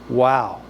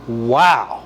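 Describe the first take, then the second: First: It is said plainly, without emotion. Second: It is said with strong emotion.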